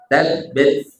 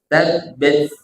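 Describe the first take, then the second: The two takes are said the same way.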